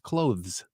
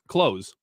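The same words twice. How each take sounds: First: The th sound is clearly pronounced. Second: The th sound is dropped, like close. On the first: "She deliberately pronounces the T H" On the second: "I always just say clothes"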